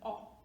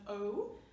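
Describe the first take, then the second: First: The vowel is said the Spanish way. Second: The vowel is said the English way. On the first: The speaker calls it right. "it's an O" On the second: The speaker calls it wrong. "it is not O, like in English"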